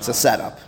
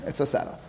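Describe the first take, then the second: First: Said in the usual way. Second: Breathy whispered repeat of the punchline; whispered aside. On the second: Shown as a demonstration. Teacher whispering it again to the class. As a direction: drop to a whisper to let it sink in.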